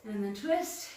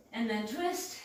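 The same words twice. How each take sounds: The two takes are said the same way.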